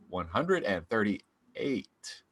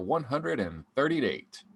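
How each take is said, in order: First: The number is said with careful, crisp articulation. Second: The number is said casually, without extra care.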